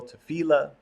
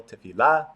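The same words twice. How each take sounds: First: "tefillah" said te-FI-llah, the middle syllable pitched higher and stressed. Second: "tefillah" said te-fi-LLAH, the final syllable stressed and rising; stress on last syllable. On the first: Teacher showing the anglicized pronunciation, stress on middle syllable. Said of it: "pronounce it with the accent on the middle syllable". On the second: Teacher showing the class one pronunciation, stress on last syllable. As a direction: land hard on the end of "tefillah": te-fi-LLAH. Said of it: "pronounce it with the accent on the last syllable". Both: Shown as a demonstration.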